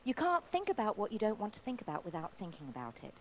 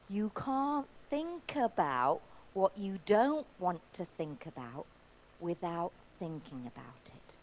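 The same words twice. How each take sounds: First: It is said at normal speed. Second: It is said slowly.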